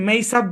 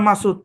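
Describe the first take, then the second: First: The name is said with an American-style pronunciation. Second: The name is said with its original Bengali pronunciation. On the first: It follows English spelling rules. The speaker calls it wrong. "American যদি এসে মেইসাদ বলে" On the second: It keeps the name's original form. The speaker calls it right. "আমার নাম মাসুদ"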